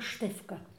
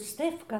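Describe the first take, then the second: First: The name begins with an sh sound. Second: The name begins with a plain s sound. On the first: "tylko Sztefka" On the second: "nie mówił Stefka"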